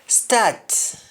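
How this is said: The word begins with an s sound. "words that start with S T"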